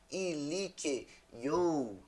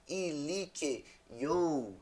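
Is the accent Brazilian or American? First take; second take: Brazilian; Brazilian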